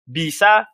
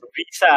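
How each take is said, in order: First: "Bisa" said with a clear B; B sound. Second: "bisa" said as "visa", with V for B; V sound. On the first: Showing friends how B and V read alike, "Bisa" with B. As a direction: start "Bisa" on a plosive B. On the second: Showing friends the typo still reads, "bisa" with a V. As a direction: swap the B of "bisa" for a V. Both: Shown as a demonstration. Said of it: "B sama, sama V gitu".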